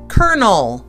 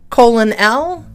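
First: It is pronounced like the word kernel. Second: It is pronounced as spelled, like colon L. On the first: The speaker calls it right. "but we pronounce it colonel" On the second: The speaker calls it wrong. "It looks like colon L"

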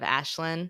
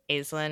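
First: The name begins with an 'ash' sound. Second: The name begins with an 'eye' sound, like island. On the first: "I want to say Ashlyn" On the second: "The book has her down as Aislinn for Staten Island, I guess just to create more of that kind of sound of island"

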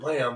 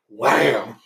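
First: The word is said flatly, without excitement. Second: The word is said loudly, with exclamatory excitement. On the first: The speaker calls it wrong. "It's not wham" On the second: The speaker calls it right. "it's wham"

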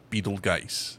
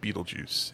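First: The name is not said like 'Beetlejuice'. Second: The name is said like 'Beetlejuice'. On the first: The speaker calls it right. "It's Betelgeuse" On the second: The speaker calls it wrong. "the pronunciation is not Beetlejuice"

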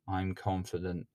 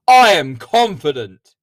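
First: It is said flatly, without emotion. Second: It is said loudly, with emotional intensity.

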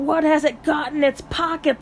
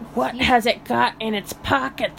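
First: It is said in the speaker's ordinary voice. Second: It is said in a put-on creature voice. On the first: The speaker calls it wrong. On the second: The speaker calls it right.

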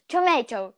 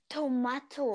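First: It is said with an American accent. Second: It is said with a British accent.

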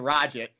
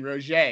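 First: The name is said with an English pronunciation. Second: The name is said with a French pronunciation. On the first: The speaker calls it wrong. "you're not saying" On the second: The speaker calls it right. "You're saying Roget"

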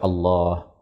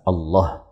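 First: The vowel in 'lah' is held for two beats. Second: The vowel in 'lah' is cut short. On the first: The speaker calls it right. "Boleh dibaca Allah" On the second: The speaker calls it wrong. "asalkan tidak dibaca qasr, asalkan tidak dibaca Allah"

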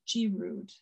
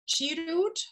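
First: The name is said the American way. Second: The name is said the German way.

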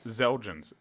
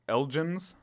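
First: The name begins with a 'z' sound. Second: The name begins with an 'el' sound. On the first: "They're pronouncing it like a Z?" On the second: "Without it is Elgens"

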